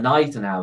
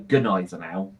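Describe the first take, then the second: First: The opening G is silent. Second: The opening G is sounded. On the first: The speaker calls it right. "but you say nice and out" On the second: The speaker calls it wrong. "You don't go good nice and out"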